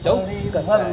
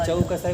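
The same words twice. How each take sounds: First: The k sound is doubled and held long. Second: The k sound is short and single. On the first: The speaker calls it right. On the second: The speaker calls it wrong.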